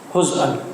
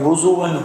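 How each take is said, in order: First: No vowel follows z, then a glottal stop. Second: A vowel follows z, then a w sound. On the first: "बिसुकूनिज़ ज़ाई वल हमज़ा" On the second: "व बिज़म्मिज़ ज़ाई बिला हमज़िन"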